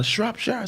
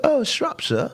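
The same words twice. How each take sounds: First: Said in the usual way. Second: Put-on British accent. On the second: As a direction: mimic his wife's British accent on Shropshire. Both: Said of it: "I changed my accent".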